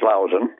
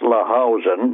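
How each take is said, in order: First: The name is said in its shorter, usual form. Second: The name is sounded out as it is spelled. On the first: The speaker calls it right. "but pronounced Lausanne" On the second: The speaker calls it wrong. "if you pronounce it the way it's shown"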